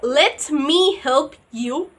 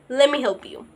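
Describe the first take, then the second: First: Let me is said as two full words. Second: Let me is blended into one word, lemme. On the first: "Instead of saying let me help you" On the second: "you were just saying"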